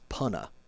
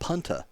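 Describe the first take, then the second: First: The T sound in the middle is dropped. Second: The T sound in the middle is pronounced. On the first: This is how locals say it. The speaker calls it right. "There's no T in Punta Gorda if you're a local" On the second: This is how non-locals say it. The speaker calls it wrong. "I try to tell them it's not even Punta Gorda"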